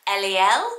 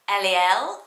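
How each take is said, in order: No difference in how they are said.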